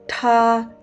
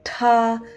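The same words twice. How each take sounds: First: The t has a strong puff of air. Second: The same.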